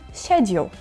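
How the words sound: It is said in a British accent, starting 'sh'.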